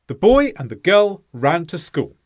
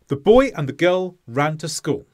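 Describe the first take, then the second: The two takes are said the same way.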